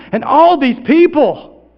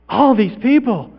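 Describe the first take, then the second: First: Loud, high, slow wonder; big, drawn-out astonishment; amazed. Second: Higher, slow wonder; drawn-out, less forceful marvelling; lingering amazement. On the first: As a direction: marvel at the crowd, stretching the words. Amazed at seeing the crowd. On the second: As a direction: repeat it slowly, taking it in. Repeats it in lessening wonder. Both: Acted.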